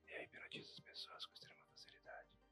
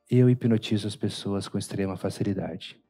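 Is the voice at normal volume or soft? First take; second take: soft; normal. First: It is spoken very softly, almost fading out. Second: It is spoken at a normal speaking volume. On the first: "Aí eu vou diminuindo o tom de voz" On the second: "Aí eu falo"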